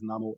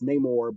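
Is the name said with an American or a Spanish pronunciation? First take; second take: Spanish; American. First: The name has a Spanish-style pronunciation. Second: The name has an American-style pronunciation. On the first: It refers to the film's character. "but this version is Namor" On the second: It refers to the comic-book character. "I pronounce comic the the comic version as Namor"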